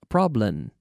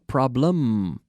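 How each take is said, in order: First: The final M is weak, lips not closed. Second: The final M is clear, lips fully closed. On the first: The speaker calls it wrong. "So I hear people say" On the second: The speaker calls it right. "You have to close your lips with the letter M"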